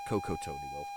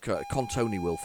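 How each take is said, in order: First: The first word has no added n sound. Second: The first word has an added n sound. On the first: The speaker calls it right. "instead of" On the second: The speaker calls it wrong. "Pronounced it totally wrong. I put another N in there"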